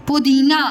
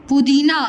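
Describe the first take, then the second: Both takes have the same delivery.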